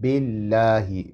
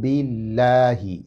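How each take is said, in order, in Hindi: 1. L की आवाज़ हल्की और बारीक है। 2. L की आवाज़ हल्की और बारीक है।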